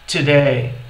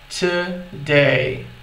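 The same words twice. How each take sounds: First: The word is said at normal speed. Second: The word is said slowly and drawn out. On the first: "Falando normalmente" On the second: "Agora de uma forma mais devagar"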